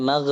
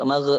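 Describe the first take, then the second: The two takes are said the same way.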